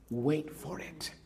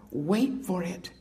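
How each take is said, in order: First: Hushed and slowed, drawing the words out; soft slow reading. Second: Said in the usual way. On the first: Shown as a demonstration. Reading scripture to the congregation, soft and slow. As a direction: let the verse settle quietly. Reads verse softly, then repeats.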